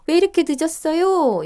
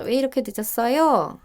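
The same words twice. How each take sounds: First: 이렇게 pushed high and loud, falling at the end; asking why so late. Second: 늦었어요 carries the weight, 이렇게 not pushed; calmer why so late. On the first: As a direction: lean hard on 이렇게 in an exasperated question. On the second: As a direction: stress on 늦었어요 with a gentle fall. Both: Shown as a demonstration. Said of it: "이렇게 물어보는 거죠".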